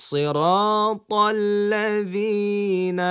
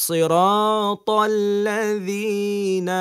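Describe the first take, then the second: No difference in how they are said.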